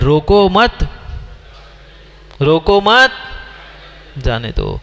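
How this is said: There is a pause after मत.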